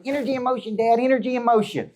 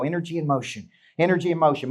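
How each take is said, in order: First: Put-on high-pitched little kid echoing Dad; three-year-old daughter. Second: Said in the usual way. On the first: Three-year-old parrots her dad's motto from the car, high child voice. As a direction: imitate a small child, voice pitched way up. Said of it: "I put my three-year-old in the car". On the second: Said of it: "I look at her and I go".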